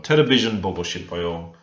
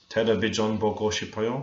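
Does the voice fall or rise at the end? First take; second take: falls; rises. First: The voice falls at the end, like a statement. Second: The voice rises at the end, like a question.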